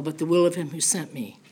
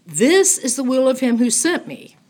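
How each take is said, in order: First: Said in the usual way. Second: This punched high and loud, the rest of the phrase falling; stress on This. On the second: Shown as a demonstration. Teacher repeating the verse to drive home This, with stress on This. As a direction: hit the word This, then let the rest fall.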